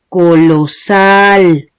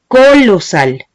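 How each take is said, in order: First: The stress is on the last syllable. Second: The stress is on the first syllable. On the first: The speaker calls it right. "la vocal que estoy alargando es la A" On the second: The speaker calls it wrong. "Yo no digo colosal"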